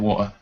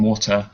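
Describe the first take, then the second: First: The T sound in the middle is dropped. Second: The T sound in the middle is pronounced. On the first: "I just skip out the T's" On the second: "instead of saying water"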